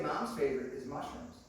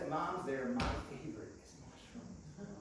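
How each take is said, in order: First: "Mom's" carries the weight; stress on Mom's. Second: "my" stretched out, softer toward the end; stress on "my". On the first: Shown as a demonstration. Preacher showing what Julie didn't say, stress on "Mom's". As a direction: put the emphasis on "Mom's". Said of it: "She didn't say". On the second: Retold or imitated. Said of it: "She said".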